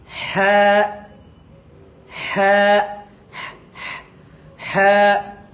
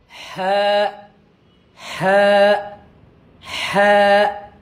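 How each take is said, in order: The two takes are said the same way.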